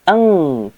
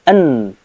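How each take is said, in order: First: The syllable ends in a nasal ng sound. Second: The syllable ends in a clear n sound. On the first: The speaker calls it wrong. "Jadi tidak ang" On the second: The speaker calls it right. "tapi an, huruf n"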